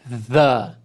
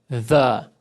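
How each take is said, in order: First: The word starts with a voiced TH sound. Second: The word starts with a voiced TH sound.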